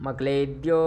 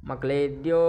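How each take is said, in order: Both takes have the same delivery.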